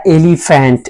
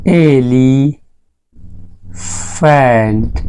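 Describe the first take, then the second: First: Said in the usual way. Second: elephant very slowly, एली... pause... फेंट; slow sounded-out pronunciation. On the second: Shown as a demonstration. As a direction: stretch elephant into two long, separate parts. (Elephant को तोड़कर बहुत धीरे बोलें) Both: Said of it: "मैंने कहा elephant".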